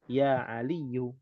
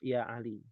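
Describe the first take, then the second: First: The name ends with a full final u vowel. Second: The name stops short without a final vowel. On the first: Every ending is read out in full. "belajar semuanya harus dibaca" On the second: This is the form used when pausing. "kalau di wakaf ya Ali"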